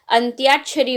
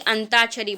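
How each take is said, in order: First: अंत्याक्षरी with a clear "tyaa"; correct Y glide. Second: अंताक्षरी with a bare "taa"; wrong, no Y. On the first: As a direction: put a Y glide after T in अंत्याक्षरी. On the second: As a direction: drop the Y glide from अंताक्षरी. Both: Shown as a demonstration. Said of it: "ना कि अंताक्षरी".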